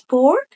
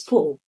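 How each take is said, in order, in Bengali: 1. American উচ্চারণ, r ধ্বনিটি উচ্চারণ করা হয়। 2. ব্রিটিশ উচ্চারণ, r ধ্বনিটি বাদ দেওয়া হয়। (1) "আমেরিকানরা বলবে" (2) "ব্রিটিশরা বলবে"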